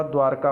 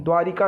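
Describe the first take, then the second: First: द्वारका as "dwaar-kaa"; no middle vowel. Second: द्वारिका as "dwaa-ri-kaa", louder; wrong inserted vowel. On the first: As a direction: join r and k in द्वारका. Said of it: "द्वारिका नहीं होता". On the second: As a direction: punch out the "ri" in द्वारिका. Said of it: "नहीं होता". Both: Shown as a demonstration.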